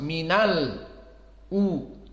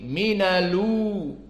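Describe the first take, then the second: First: A glottal stop separates minal from u. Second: The l links straight into u without a stop. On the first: "qiraah Hafs minal u" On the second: "hamzahnya dihilangkan ... dilarikan kepada lam"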